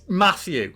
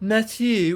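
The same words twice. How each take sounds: First: The name is said with a plain native pronunciation. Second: The name is said with a foreign-sounding accent. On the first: The speaker calls it right. "Say it properly" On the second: The speaker calls it wrong. "I know the actress has a an accent, but when she's like"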